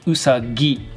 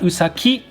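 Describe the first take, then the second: First: The middle consonant is a G sound. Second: The middle consonant is a K sound. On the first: The speaker calls it right. "which turns that ki into a G sound" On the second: The speaker calls it wrong. "not usaki"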